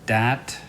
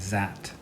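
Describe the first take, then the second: First: The word begins with a d sound. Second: The word begins with a z sound. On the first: "Some people may say uh, dat" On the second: "Some people may say zat"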